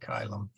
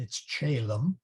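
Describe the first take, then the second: First: It uses the classical Latin pronunciation. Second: It uses a non-classical Latin pronunciation. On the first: "if you were Caesar or Cicero, you would have said Chylum" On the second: "So it's not Calem, it's Chelem"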